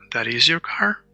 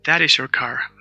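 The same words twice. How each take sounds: First: "That is your car" rising sharply on car; question intonation. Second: "That is your car" falling to the end; statement intonation. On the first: Teacher contrasts question with statement for learners, rising question tune. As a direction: turn "That is your car" into a question by lifting the last word. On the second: Teacher contrasts statement with question for learners, falling statement tune. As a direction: say "That is your car" as a settled statement, pitch dropping on car. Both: Shown as a demonstration. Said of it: "The only difference is the intonation".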